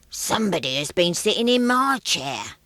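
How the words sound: It is said in a deep, growly voice.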